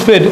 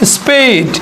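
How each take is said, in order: First: The vowel is a plain short eh sound. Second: The vowel glides like ay. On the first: The speaker calls it wrong. "Not স্পেড" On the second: The speaker calls it right. "এটা হবে স্পেড"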